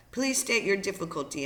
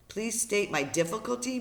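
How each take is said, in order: First: Said in the usual way. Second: Higher-pitched, disbelieving echo; incredulous echo. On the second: Acted. Brian thinks over the operator's request, incredulous echo. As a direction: throw the words back in disbelief. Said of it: "Brian thought".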